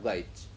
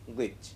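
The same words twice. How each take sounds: First: The vowel differs from the vowel in 'tin'. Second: The vowel matches the vowel in 'tin'. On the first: The speaker calls it wrong. "and not glitch" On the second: The speaker calls it right. "it is clubbed with tin, miss, print"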